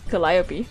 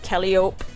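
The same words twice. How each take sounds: First: The name is not read out as spelled. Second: The name is read out just as spelled. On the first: The speaker calls it right. "that's where I learned that it was pronounced Calliope" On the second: The speaker calls it wrong. "I used to say Calliope like Calliope"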